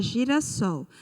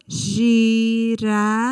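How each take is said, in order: First: Said in the usual way. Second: "Girassol" split into gi, ra, sol, very slow and loud; syllable by syllable. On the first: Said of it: "Se a gente fosse separar". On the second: Shown as a demonstration. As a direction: separate the three syllables of "Girassol", stretching each one. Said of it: "separar essa palavra, não ficaria três sílabas". ("Girassol" separado em sílabas, bem devagar e forte)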